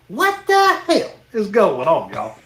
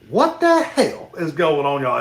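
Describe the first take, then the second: First: It is said loudly and very forcefully. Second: It is said with some rising energy.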